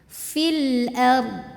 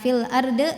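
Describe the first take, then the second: First: The r flows smoothly straight into the final consonant. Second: The r is bounced, with an added vowel. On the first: The speaker calls it right. "Jadi ro-nya ngalir tawasud ya, baru ke dod" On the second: The speaker calls it wrong. "bukan fil arde"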